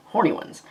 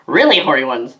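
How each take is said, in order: First: Said in the usual way. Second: "Really" hit harder than "horny ones"; stress on really. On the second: Acted. Correcting herself, she punches "Really". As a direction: lean on the word "Really".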